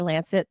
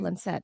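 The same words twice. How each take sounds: First: It is said with an American pronunciation. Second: It is said with a British pronunciation. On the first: "I know Americans say Lancet" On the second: "I've heard British people say it"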